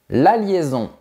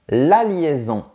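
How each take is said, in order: No difference in how they are said.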